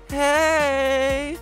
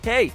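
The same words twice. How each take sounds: First: The word is stretched out and held long. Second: The word is said short and clipped.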